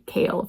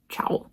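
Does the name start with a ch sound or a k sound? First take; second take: k sound; ch sound. First: The name begins with a k sound. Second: The name begins with a ch sound. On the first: The speaker calls it right. "it's one hundred percent Kale" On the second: The speaker calls it wrong. "clearly his name is not Chowl"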